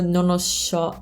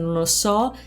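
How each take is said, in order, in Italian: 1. La s in so suona a metà strada verso sh. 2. La s in so è una s semplice. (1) "una V di mezzo tra sh e s" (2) "invece di dire non lo so"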